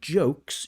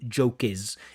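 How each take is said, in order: First: The final consonants blend into one syllable. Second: An extra vowel adds a second syllable. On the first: The speaker calls it right. "Instead of saying jokes" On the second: The speaker calls it wrong. "you add an extra vowel sound"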